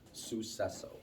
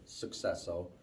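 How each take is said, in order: First: No k sound comes after the first syllable. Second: A hard k sound comes after the first syllable. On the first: The speaker calls it right. "There's no hard C, there's no k" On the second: The speaker calls it wrong. "I've even caught myself saying it, uh, successo"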